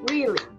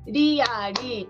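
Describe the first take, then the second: First: It is said with English-style sounds. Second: It is said with Japanese-style syllables. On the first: The speaker calls it right. "2 アクセントで言ってください" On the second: The speaker calls it wrong. "リアリーっていうんじゃなくて"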